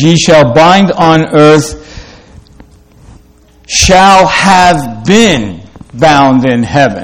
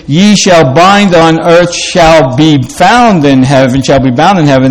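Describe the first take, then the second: First: Slow, word-by-word literal reading; awkward literal reading. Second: Smooth, natural scripture reading; flowing reading. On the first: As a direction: read it stiffly, each word weighed. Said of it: "It's kind of awkward sounding". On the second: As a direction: let the verse flow like everyday speech. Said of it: "that sounds more flowing". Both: Shown as a demonstration.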